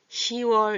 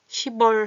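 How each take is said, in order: First: No p sound is heard before the final syllable. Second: A p sound is heard before the final syllable. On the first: The speaker calls it right. "받침을 빼고 시월 이렇게 합니다" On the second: The speaker calls it wrong. "발음이 좀 이상하죠?"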